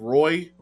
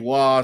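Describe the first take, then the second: First: The name is said with an R and oy sound. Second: The name is said with a W and ah sound. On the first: This is the common but mistaken pronunciation. The speaker calls it wrong. "people just said Roy" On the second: This is the pronunciation the player himself uses. The speaker calls it right. "But it's actually Wah"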